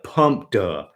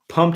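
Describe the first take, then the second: First: It ends with an added duh syllable. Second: It is said as one clipped syllable.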